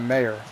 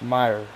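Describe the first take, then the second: First: The first syllable sounds like 'may'. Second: The first syllable sounds like 'my'. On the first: The speaker calls it wrong. "It's not Mayer" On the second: The speaker calls it right. "It's Meyer"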